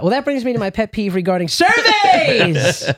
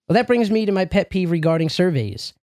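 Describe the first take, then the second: First: It is read with lively, expressive inflection. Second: It is read flatly, without expression.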